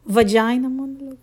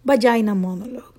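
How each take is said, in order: First: "Vagina" with a V, "vajina". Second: "vagina" as "bagina", quick; B start on "vagina". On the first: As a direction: clear V on "Vagina". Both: Shown as a demonstration. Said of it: "I will give you guys".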